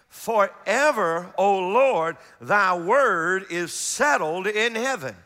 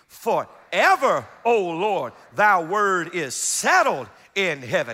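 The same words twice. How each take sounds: First: It is read plainly, with little emphasis. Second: It is read with strong, energetic emphasis.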